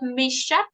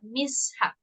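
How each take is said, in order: First: The two parts run together as one word. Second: The two parts are said like separate words. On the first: The speaker calls it wrong. "Not mishap" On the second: The speaker calls it right. "but mishap. Like two different words"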